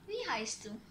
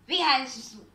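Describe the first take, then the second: First: It is said in a friendly, positive tone. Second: It is said in a harsh, negative tone.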